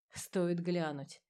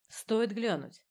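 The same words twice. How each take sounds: First: Slow, softer, savoring the motto; musing motto. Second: Dry, precise report over a helmet radio; clipped like a scalpel, through a helmet. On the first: A narrator's reading. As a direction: repeat it quietly like a creed. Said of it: "Это был их девиз". (задумчиво, медленно и тише, как девиз) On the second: Acted. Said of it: "голос Алисы Ворон в шлеме был сухим и точным". (сухой голос в шлеме, как скальпель)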